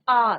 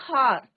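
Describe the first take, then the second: First: The word begins directly with a vowel sound. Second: The word begins with an audible h sound. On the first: The speaker calls it right. "It is are" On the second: The speaker calls it wrong. "But it's not हार"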